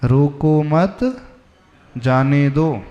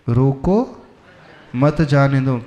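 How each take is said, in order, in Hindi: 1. विराम दूसरे शब्द के बाद है। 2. विराम पहले शब्द के बाद है। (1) "पहले का अर्थ था जाने दो" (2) "बस कॉमा इधर से उधर हुआ"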